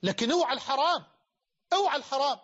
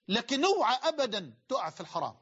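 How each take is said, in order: First: Raised, louder warning; a stern loud warning to the listeners. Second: Said in the usual way. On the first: Real, not acted. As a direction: call it out loud so all hear. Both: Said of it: "بقولها لك بصوت عالي".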